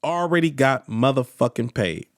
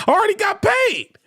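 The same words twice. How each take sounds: First: Low-pitched, settled restatement of the boast; low deadpan repeat. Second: High-pitched defiant cry; defiant outburst. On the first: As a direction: drop it low and matter-of-fact. Last repeat, dropped down for effect. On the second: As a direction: shout it up high, triumphantly brushing them off. Mock heckler retort, repeated for effect. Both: Acted.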